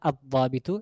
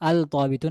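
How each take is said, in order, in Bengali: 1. L ধ্বনিটি মিশে গিয়ে দ্বিত্ব D ধ্বনিতে পরিণত হয়। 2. আলিফ-লামের L-এর ধ্বনি উচ্চারিত হয়। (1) "এখানে লামের উচ্চারণ আসবে না" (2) "না"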